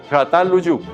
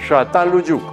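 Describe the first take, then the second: No difference in how they are said.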